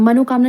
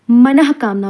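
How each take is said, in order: First: मनोकामना with an o after मन, as mano-kaamna; wrong form shown. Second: मनःकामना with a breathy h after मन, no o; correct pronunciation. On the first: Teacher citing the common mistake, मनोकामना with an o. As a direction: say मनोकामना with no h, o instead. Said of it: "मनोकामना नहीं होता". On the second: Teacher giving the correct form, मनःकामना with visarga sounded. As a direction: say मनःकामना as manah-kaamna. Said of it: "मनःकामना होता है". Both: Shown as a demonstration.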